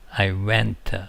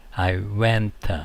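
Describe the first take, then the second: No difference in how they are said.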